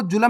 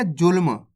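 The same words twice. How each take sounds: First: जुल्म said as "ju-lam", with a vowel after the l; wrong full-letter reading. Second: जुल्म said as "julm", l running straight into m; half-letter reading. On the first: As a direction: break up the half l in जुल्म into a full "la". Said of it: "आपको जुल्म नहीं पढ़ना". (जुल्म को पूरे ल के साथ "जुलम" पढ़ें) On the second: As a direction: join l and m in जुल्म with no vowel between. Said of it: "कैसे पढ़ेंगे?". (जुल्म में आधा ल, सीधे म से जुड़ा) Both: Shown as a demonstration.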